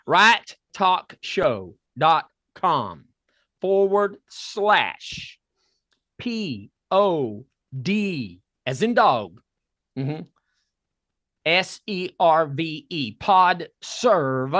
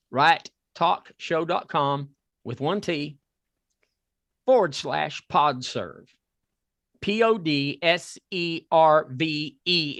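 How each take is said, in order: First: Very slow spelled-out. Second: Measured read-out. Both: Shown as a demonstration. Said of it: "if you can understand this Southern accent".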